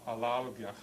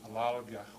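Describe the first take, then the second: No difference in how they are said.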